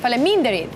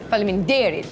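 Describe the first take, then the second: First: The stress falls on a non-native syllable. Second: The stress falls on the native syllable. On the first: The speaker calls it wrong. "I kept saying" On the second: The speaker calls it right. "Because it's faleminderit. It's the same word with a different emphasis"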